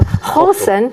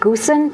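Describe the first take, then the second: First: It begins with a throaty Dutch G sound. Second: It begins with a hard English G sound. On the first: This is how the Dutch say it. The speaker calls it right. "the Dutch don't say G, they say G" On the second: This is how the spelling looks to an English reader. The speaker calls it wrong. "it would look like Goosen"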